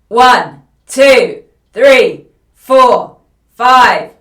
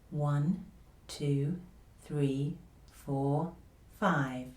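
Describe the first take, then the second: First: The voice is loud and tightly pressed. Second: The voice is quiet, easy and gentle. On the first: The speaker calls it wrong. "a voice that is too loud with too much press in the voice" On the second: The speaker calls it right. "confidential voice again. Quiet, easy, gentle voice"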